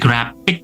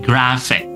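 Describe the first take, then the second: First: The middle consonant is a p sound. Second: The middle consonant is an f sound. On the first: The speaker calls it wrong. "Jadi bukan lagi graphic" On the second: The speaker calls it right. "P di sini berubah menjadi F"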